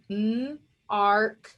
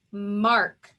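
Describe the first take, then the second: First: "m, arc" as two separate sounds with a gap; sounded out. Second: Said in the usual way. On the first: Shown as a demonstration. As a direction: hold the m alone, then say "arc". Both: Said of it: "So if I sound this out".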